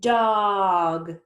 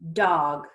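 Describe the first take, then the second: First: The word is drawn out slowly, sounds stretched. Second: The word is said quickly as one unit. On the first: "Let's blend them slowly" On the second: "Let's say it fast like a word"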